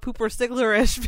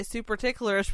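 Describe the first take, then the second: First: High "pooper sticklerish", P and S swapped; drunken slip. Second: "super ticklerish" with S opening SUPER; intended wording. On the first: Explaining how it came out drunk, slipped "pooper sticklerish". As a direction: garble it as "pooper sticklerish", P first. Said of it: "but it came out pooper sticklerish". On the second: Explaining what they meant to say, intended "super ticklerish". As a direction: say "super ticklerish", P moved back to mid-word. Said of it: "I was trying to say super ticklerish". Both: Shown as a demonstration.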